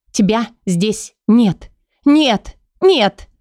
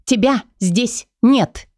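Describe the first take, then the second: First: Desperate denial. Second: Higher, slow, numb woman's voice; stunned disbelief. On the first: Лейла в отчаянии отталкивает Кая, срываясь на крик. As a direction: push him away, breaking into pleading. Leila rejects him, rising to cries. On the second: Лейла не верит, что Кай вернулся, медленно и тихо потрясённо. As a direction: she can't believe he is real. Leila cannot believe he is back. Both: Acted.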